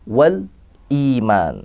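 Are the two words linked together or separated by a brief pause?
paused. A brief pause separates the two words.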